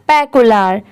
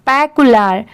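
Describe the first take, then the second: No difference in how they are said.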